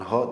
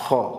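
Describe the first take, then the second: First: The consonant is a light breathy h sound. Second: The consonant is a rasping sound from the throat. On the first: The speaker calls it wrong. "kesalahan umum mendekati bunyi huruf H" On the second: The speaker calls it right. "tapi ho"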